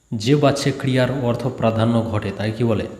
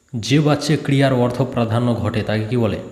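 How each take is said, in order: Both takes have the same delivery.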